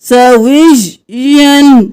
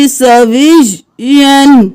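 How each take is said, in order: The two takes are said the same way.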